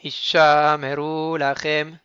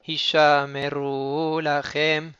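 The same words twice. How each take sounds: First: Hishameru lachem slow and louder, lingering on ru; slow chanted phrase; slowed rou. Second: Slow chanted phrase; slowed rou. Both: Shown as a demonstration. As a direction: drag the ru of Hishameru. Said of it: "on ralentit un petit peu aussi sur le rou".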